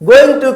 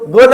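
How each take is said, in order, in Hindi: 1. दोनों शब्द पूरे और अलग-अलग बोले जाते हैं। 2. ये शब्द मिलकर एक छोटा, संक्षिप्त शब्द बन जाते हैं।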